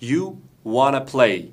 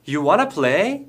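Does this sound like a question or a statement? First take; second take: statement; question. First: It is said with a statement intonation. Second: It is said with a question intonation. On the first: It states what the listener wants. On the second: It asks whether the listener wants to.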